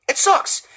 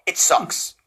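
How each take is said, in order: First: Said in the usual way. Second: Low whispered disgust; whispered verdict. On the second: Real, not acted. Repeats verdict two ways.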